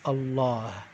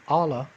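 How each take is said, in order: First: The stress falls on the last syllable. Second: The stress falls on the first syllable. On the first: The speaker calls it right. "the emphasis is on the last half of the word" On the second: The speaker calls it wrong. "instead of saying Allah"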